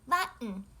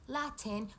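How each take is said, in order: First: The middle sound is a glottal stop. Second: The middle sound is a clear T. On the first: The speaker calls it right. "we say" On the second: The speaker calls it wrong. "We don't say"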